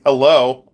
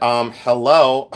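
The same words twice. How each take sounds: First: Punchier, louder "Hello?" with a falling end; louder sarcastic hello. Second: Slow, drawn-out sarcastic "hello?". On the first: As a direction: hit "Hello?" harder, exasperated. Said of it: "repeats her retort louder". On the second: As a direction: stretch "Um, hello?" like it's obvious. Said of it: "And I said". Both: Retold or imitated.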